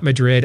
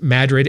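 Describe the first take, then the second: First: It is pronounced the usual, non-local way. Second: It is pronounced the local Iowa way. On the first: This is not how locals say the town name. The speaker calls it wrong. "and not Madrid" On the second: This is how the town name is said locally. The speaker calls it right. "It was Madrid"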